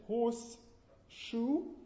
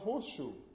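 First: The s of 'horse' is kept as s. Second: The s of 'horse' merges into sh. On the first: The speaker calls it wrong. "What is it, horse shoe" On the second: The speaker calls it right. "or is it not rather horseshoe?"

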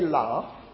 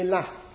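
First: The vowel is long, as in southern British. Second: The vowel is short, as in northern English. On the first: "you wouldn't say laugh" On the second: "if you were an inhabitant of Lancaster or other places up in the north ... you would say laugh"

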